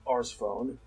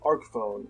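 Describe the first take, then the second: First: The first word ends with an S sound. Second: The first word ends with a hard K sound. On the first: The speaker calls it wrong. "not the Ars phone" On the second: The speaker calls it right. "you get the Arc phone"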